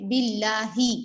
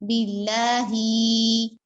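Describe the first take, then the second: First: The final vowel is kept short. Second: The final vowel is drawn out long. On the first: The speaker calls it right. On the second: The speaker calls it wrong.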